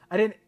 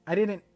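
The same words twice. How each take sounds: The two takes are said the same way.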